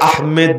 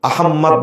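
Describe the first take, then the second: First: The second syllable is said as 'med'. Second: The second syllable is said as a doubled 'mmod'. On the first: "এটাকে আহমেদ বলা যাবে না" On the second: "আহম্মদ বলা যাবে না"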